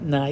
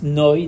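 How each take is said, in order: First: The vowel sounds like 'ai'. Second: The vowel sounds like 'oi'. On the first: The speaker calls it wrong. "not with a Patach, not Nai" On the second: The speaker calls it right. "under the Nun is a Kamatz"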